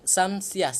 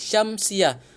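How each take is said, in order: First: The word begins with an 's' sound. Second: The word begins with a 'sh' sound. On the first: The speaker calls it wrong. "Jangan sebut Samsiyah" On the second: The speaker calls it right. "kena sebut Syamsiyah"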